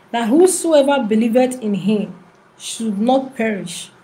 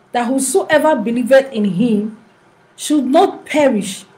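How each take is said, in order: The two takes are said the same way.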